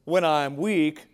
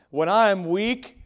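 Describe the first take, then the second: First: Said in the usual way. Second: I am weak, with I punched higher and louder; rising, emphatic "When I am weak" with the weight on I; stress on I. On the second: Shown as a demonstration. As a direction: lean hard on I in "When I am weak". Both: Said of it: "doesn't that sound backwards".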